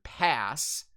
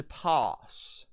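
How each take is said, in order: First: "pass" with the flat A of "cat"; American short A in "pass"; American pronunciation. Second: "pass" with a broad "ah", like "pahss"; long open A in "pass"; High British pronunciation. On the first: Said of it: "the American Standard pass". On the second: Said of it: "will turn into pass". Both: Shown as a demonstration.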